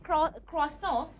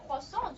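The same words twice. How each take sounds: First: CROISSANT with the r sounded after the c; English-style croissant. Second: CROISSANT as "kwa-son", nasal ending; French-style croissant. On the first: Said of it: "they pronounce it". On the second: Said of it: "just like they say it in French". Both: Shown as a demonstration.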